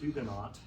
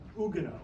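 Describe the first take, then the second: First: Both the first H and the final T are pronounced. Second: Neither the H nor the final T is pronounced. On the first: This is the form learned in school. "I learned when I was a school child to say Huguenot" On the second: This is how the French say it. "the French actually would say Huguenot"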